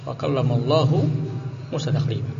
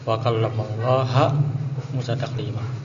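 First: The vowel after Allah is u. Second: The vowel after Allah is a. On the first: God spoke to Moses. The speaker calls it right. "Yang harusnya dibaca dengan dhammah" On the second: Moses spoke to God. The speaker calls it wrong. "mereka baca dengan fathah"

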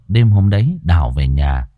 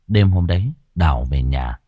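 First: The voice sounds boomy with heavy bass. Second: The voice sounds clearer with less bass. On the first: The speaker calls it wrong. "Nó hơi ồm ồm đúng không, nó hơi nhiều bát hả?" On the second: The speaker calls it right. "Nghe có vẻ đỡ hơn đúng không?"

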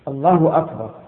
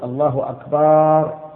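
First: No vowel is drawn out unusually long. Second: The vowel after the b sound is lengthened. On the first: The speaker calls it right. "ويشترط الترتيب بين الكلمتين" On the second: The speaker calls it wrong. "أن لا يمد الباء"

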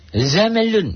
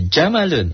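First: The word begins with a 'z' sound. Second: The word begins with a 'j' sound. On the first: The speaker calls it wrong. "enggak Zamalun. Itu mah orang yang manja yang enggak tahu makhraj" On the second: The speaker calls it right. "Jamalun unta"

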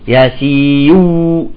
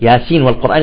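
First: The n is merged into the following w. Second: The n is clearly pronounced before the w. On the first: The speaker calls it wrong. "ما نقول ياسيو" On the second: The speaker calls it right. "تقرأ ياسين والقرآن الحكيم من غير إدغام"

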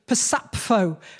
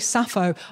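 First: The name starts with a ps sound. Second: The name starts with a plain s sound. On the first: The speaker calls it right. "it should be a ps" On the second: The speaker calls it wrong. "I'm getting her name wrong"

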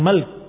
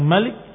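First: No vowel follows the l sound. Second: An i vowel follows the l sound. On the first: "dengan sukun di lam" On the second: "dengan kasrah di lam"

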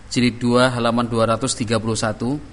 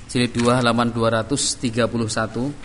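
No difference in how they are said.

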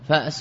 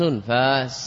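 First: A glottal stop follows the first vowel. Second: A long vowel replaces the glottal stop.

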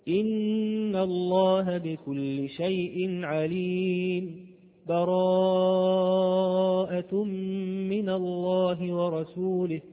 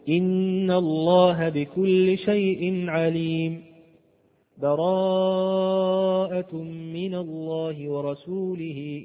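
First: A brief stop without a breath before the second phrase. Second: A full stop with a breath before the second phrase. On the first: "وقفت ولم أخذ نفس، فهذا هو السكت" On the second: "الوقف على آخر الأنفال مع التنفس ثم أول براءة"

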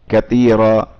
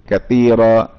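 No difference in how they are said.

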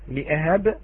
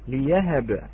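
First: A glottal stop follows the first syllable. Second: A y sound follows the first syllable. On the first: "كلمة لأهب التي وردت في سورة مريم" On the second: "قرأها كذلك بإبدالها إلى ياء"

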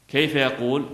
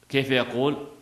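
Both takes have the same delivery.

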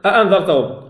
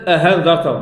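First: The second hamza is a full glottal stop. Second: The second hamza is replaced by an h sound. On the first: "قرأت الآن الهمزة" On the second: "وليست هاء وليست أهانذرتهم"

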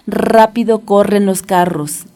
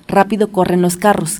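First: It is said at a quick but moderate pace. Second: It is said at a noticeably faster pace. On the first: "vámonos rápido con este trabalenguas" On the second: "Pero ahora más rápido"

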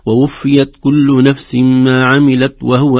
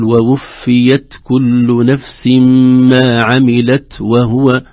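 First: The final t is weak and barely heard. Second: The final t is released with light breath. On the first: The speaker calls it wrong. "قد يقول بعضنا ... فلا يظهر نطق التاء" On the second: The speaker calls it right. "فنقول"

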